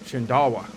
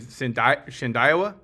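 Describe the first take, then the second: First: The middle syllable has no hard 'eye' sound. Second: The middle syllable has a hard 'eye' sound. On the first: The speaker calls it right. "it's supposed to be pronounced Shindawa" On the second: The speaker calls it wrong. "I've been saying Shindalwa the wrong way"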